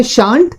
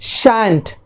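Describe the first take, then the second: First: Shan't with a long ah, SHAHNT; first pronunciation. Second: Shan't with the a of cat; second pronunciation. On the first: Teacher lists the first way, shan't with long ah. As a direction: say "shan't" with the vowel of father. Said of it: "एक तो होता है". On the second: Teacher lists the second way, shan't with short a. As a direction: say "shan't" as SHANT, like ant. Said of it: "और दूसरा होता है". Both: Shown as a demonstration.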